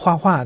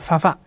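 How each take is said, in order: First: It is said in standard Mandarin, as huahua. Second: It is said with a Hunan accent, as fafa.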